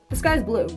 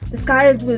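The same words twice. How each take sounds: First: It sounds casual, as if stating the obvious. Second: It sounds insistent, as if convincing oneself.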